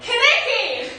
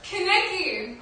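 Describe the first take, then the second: First: It is said more loudly. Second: It is said fairly loudly.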